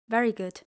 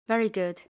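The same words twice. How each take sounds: No difference in how they are said.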